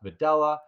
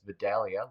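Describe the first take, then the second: First: The middle vowel sounds like E; it ends in 'la'. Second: It sounds like the onion, ending in 'lia'. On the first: The speaker calls it right. "It's pronounced Videla. ... that A in the middle of my name is pronounced like an E" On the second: The speaker calls it wrong. "The most common one I get is Vidalia, like the onion. It's not Vidalia"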